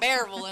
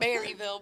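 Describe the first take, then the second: First: The name is said in a local accent. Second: The name is said in a standard way. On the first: "I'm a Bearville girl, and you can tell by the way I say it" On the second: "instead of a Berryville"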